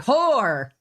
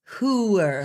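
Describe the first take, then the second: First: The vowel is a single 'or' sound. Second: The vowel is a drawn-out 'oo-er' sound. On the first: The speaker calls it wrong. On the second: The speaker calls it right. "It's hooer, like like Hoover almost"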